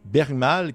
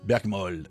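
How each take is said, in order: First: The second syllable has an open 'a' vowel. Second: The second syllable has a rounded 'o' vowel. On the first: The speaker calls it wrong. "je le prononce comme du monde" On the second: The speaker calls it right. "il est marqué plutôt prononcé Bergmol"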